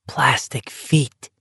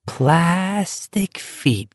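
First: Slow breathy whisper of "Plastic feet"; "Plastic feet" whispered, drawn out. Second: "Plastic feet" drawn out, higher and softer; a softer, higher, slow "Plastic feet"; dreamy repeat. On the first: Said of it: "he whispered". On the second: Whispered phrase repeated dreamily. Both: Acted.

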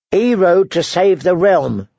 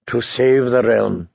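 First: Higher, slow and firm; insisting. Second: Slow, lower, sneering repeat; mocking echo. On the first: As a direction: plant every word, defending him. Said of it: "she insisted". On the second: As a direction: throw her words back at her. Jaime mockingly echoes her. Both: A narrator's reading.

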